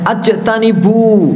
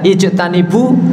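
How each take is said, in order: First: The word begins with an 'a' vowel. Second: The word begins with an 'i' vowel. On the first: The speaker calls it wrong. "tetapi dia bacanya ajtanibu" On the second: The speaker calls it right. "seharusnya dibaca ijtanibu"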